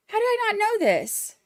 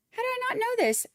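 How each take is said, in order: First: High, stress on "I"; excited disbelief. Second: Very high, stress on "not"; excited disbelief. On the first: Streamer scolds herself over a missed birthday, high and excited. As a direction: ask "How did I not know this?" with the weight on "I", pitched high. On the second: Streamer repeats her disbelief to the chatter, stressing not. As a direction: repeat it higher, leaning on "not". Learns a viewer's birthday. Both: Real, not acted.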